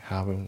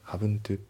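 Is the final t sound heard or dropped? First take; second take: dropped; heard. First: The final t sound is dropped. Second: The final t sound is clearly pronounced. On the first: The speaker calls it right. "t が抜けますね" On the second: The speaker calls it wrong. "じゃなくて"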